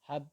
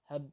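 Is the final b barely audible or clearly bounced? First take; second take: barely audible; barely audible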